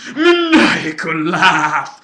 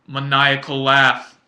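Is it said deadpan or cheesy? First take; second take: cheesy; deadpan. First: It is said in an over-the-top, hammy way. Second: It is said flat and completely serious.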